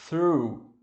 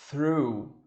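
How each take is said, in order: The two takes are said the same way.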